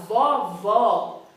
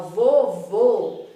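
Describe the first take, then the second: First: VOVÓ stressed, both O's open like "aw"; open-O "vovó" for comparison; open vowel. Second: VOVÔ slow and loud, O's closed like "oh"; emphatic closed-O "vovô"; closed vowel. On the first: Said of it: "o som da palavra vovó é aberto". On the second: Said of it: "o som da palavra vovô é mais fechado". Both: Shown as a demonstration.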